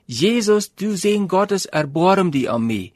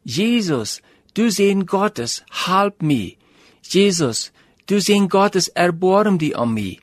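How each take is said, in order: First: Mock cry pitched up a little higher; calling out over the crowd, a touch louder; beggar's raised plea, not a full shout. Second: A blind beggar calling out, pitched up a little; half-shouted plea to Jesus; raised voice, not a full shout; mock crying out. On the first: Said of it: "En hij wordt immer lüder en immer lüder". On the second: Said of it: "dan vangt er aan te schreeuwen".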